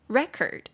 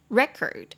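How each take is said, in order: First: The stress is on the first syllable. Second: The same.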